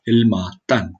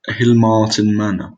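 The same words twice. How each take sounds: First: Hilmartin with a light Welsh lilt; a touch of Welsh accent on Hilmartin. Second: Hilmartin Manor in a slow, lightly Welsh lilt; a hint of Welsh accent on Hilmartin, said a bit louder. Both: Real, not acted. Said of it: "I just did a Welsh accent both times".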